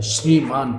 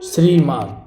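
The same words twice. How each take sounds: First: Said in the usual way. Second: श्रीमान opening with a plain s, "srimaan"; mispronounced श्रीमान. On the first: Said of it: "ये सही है ना". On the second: Shown as a demonstration. Teacher showing learners a common error, mispronounced "srimaan" for श्रीमान. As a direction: say श्रीमान with s instead of sh. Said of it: "लेकिन ये गलत होता है".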